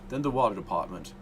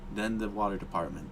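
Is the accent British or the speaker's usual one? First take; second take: British; usual. First: It is said in a put-on British accent. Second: It is said in the speaker's usual accent. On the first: "I gotta switch to my British voice" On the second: "I forgot to do my British voice"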